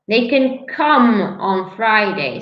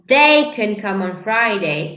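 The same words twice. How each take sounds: First: The stress falls on the word come. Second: The stress falls on the word they. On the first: The action of coming is what matters. "You're stressing the action" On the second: A specific person can come. "if I stress they, it means I'm talking about a specific person"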